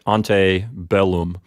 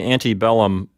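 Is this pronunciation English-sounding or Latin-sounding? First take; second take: Latin; English. First: It is said with a classical Latin pronunciation. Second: It is said with an English-style pronunciation. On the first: "A more authentic Roman pronunciation" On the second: "that's kind of an anglicized pronunciation"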